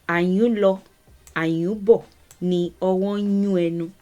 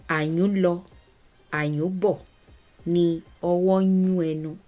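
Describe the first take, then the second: Both takes have the same delivery.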